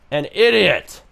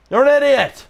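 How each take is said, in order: First: Said in the usual way. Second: Higher, louder yelled insult; mock shout. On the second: Streamer yells the insult at the AI NPC, mock shout. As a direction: bellow it back at her.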